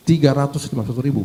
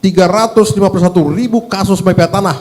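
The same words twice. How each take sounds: First: "Tiga ratus lima puluh satu ribu" rattled off fast and softer; fast, softer echo of the figure, letting it sink in; quick quiet repeat. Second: Each number laid out firmly, "tiga ratus lima puluh satu ribu" given full weight; emphatic figure. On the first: Legislator repeats the case count to the minister, fast and soft. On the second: Legislator presses the minister with Bekasi's case count, emphatic. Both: Real, not acted.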